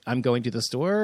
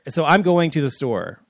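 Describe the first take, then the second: First: The voice lilts upward at the end. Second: The voice falls flatly at the end.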